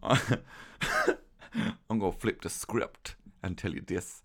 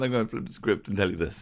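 First: It is said in a put-on character voice. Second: It is said in the speaker's normal voice. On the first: The speaker calls it wrong. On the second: The speaker calls it right.

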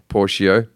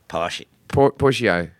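First: It is said with a mild Australian accent. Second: It is said with a thick Australian accent.

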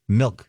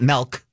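First: The vowel sounds like the 'i' in 'bit'. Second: The vowel sounds like the 'e' in 'bet'. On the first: The speaker calls it right. "there's an I, not an E" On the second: The speaker calls it wrong. "not milk"

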